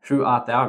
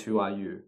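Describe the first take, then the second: First: Archaic phrasing. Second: Said in the usual way. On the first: Shown as a demonstration. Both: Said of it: "It means".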